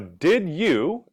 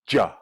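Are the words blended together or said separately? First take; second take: separately; blended. First: Each word is said separately and fully. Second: The words blend into one short syllable.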